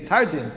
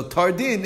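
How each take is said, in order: First: Said in the usual way. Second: "tardin" said as two words, tor and din; two separate words. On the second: Shown as a demonstration. Joins tor and din into word.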